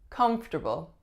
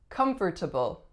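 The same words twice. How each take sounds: First: Syllables are reduced and linked together. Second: Every syllable is pronounced in full. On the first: The speaker calls it right. "reduce and link" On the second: The speaker calls it wrong. "a lot of people I hear saying this one as"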